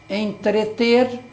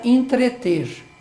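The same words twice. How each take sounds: First: The first vowel is pronounced as E. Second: The first vowel is pronounced as I. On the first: "em vez da pessoa falar entreter" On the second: "colocando esse I"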